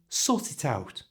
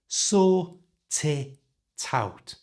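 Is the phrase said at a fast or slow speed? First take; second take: fast; slow. First: The phrase is said at normal speed. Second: The phrase is said slowly. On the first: "And at normal speed" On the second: "So slowly it sounds like this"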